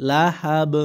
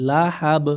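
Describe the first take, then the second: No difference in how they are said.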